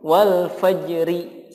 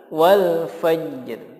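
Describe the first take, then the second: First: The final r is followed by a vowel i. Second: It ends on a clear r without vowel. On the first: The speaker calls it wrong. "Atau dibaca diharokati" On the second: The speaker calls it right. "Tapi yang betul adalah wal fajr"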